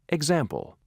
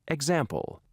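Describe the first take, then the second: The two takes are said the same way.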